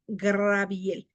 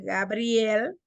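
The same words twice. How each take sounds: First: Slow "Graviel" for Gabriel; R transposed in name. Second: Said in the usual way. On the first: Shown as a demonstration. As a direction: move the r forward, "Graviel". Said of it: "decimos Graviel". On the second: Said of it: "en vez de ser Gabriel".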